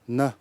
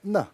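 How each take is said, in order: First: The word is said with a lower pitch. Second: The word is said with a higher pitch. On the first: It means sickness. "na means uh, you uh, s- sickness" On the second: It means something else. "which is said with a slightly higher pitch or tone"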